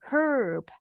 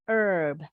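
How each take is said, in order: First: British accent, with the h sounded. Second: American accent, with the h silent.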